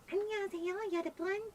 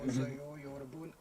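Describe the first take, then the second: First: It is said in a higher, girlish voice. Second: It is said in a deep, manly voice.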